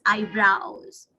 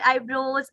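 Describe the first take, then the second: First: EYEBROWS slowly as eye-browz; correct eyebrows. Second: EYEBROWS as eye-broze; wrong eyebrows. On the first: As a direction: model "eyebrows" with a drawn-out ow. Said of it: "it's eyebrows". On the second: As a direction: say "eyebrows" with an oh vowel. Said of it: "It's not eyebrows". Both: Shown as a demonstration.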